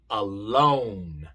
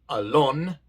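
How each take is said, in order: First: The o is a long, gliding 'oh' sound. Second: The o is a short, pure Spanish-like vowel. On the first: The speaker calls it right. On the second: The speaker calls it wrong.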